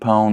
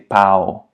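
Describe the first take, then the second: First: The vowel is nasal, with a nasal diphthong. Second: The vowel is oral, like ow, without nasality. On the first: Bread. The speaker calls it right. "instead of saying pão" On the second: A wooden stick, also vulgar slang. The speaker calls it wrong. "they just say it as an A O as in ow"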